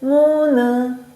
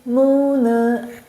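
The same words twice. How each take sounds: No difference in how they are said.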